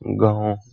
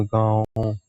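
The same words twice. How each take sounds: First: गांव said with a soft nasalised aa, little air through the nose; nasal vowel demo. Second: गांव said quieter, aa mostly through the mouth and only lightly through the nose; softer nasal demo. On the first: Teacher showing students the chandrabindu sound in गांव. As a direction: model गांव slowly with a light chandrabindu nasal aa. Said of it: "इसका आप उच्चारण करिए गांव". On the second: Teacher repeating गांव quietly after explaining the nasal rule. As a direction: repeat गांव softly, letting just a little air out of the nose. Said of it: "नाक से कम और मुख से ज्यादा ना".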